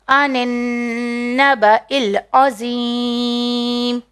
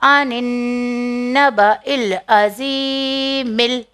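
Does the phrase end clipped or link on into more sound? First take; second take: clipped; linked. First: The last word ends cut short, no vowel after. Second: The last word carries a linking vowel onward. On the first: The reader pauses at this point. "अगर स्टॉप करेंगे तो मीम की साइन को नहीं पढ़ेंगे" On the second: The reader carries on without pausing. "Continue कर रहे"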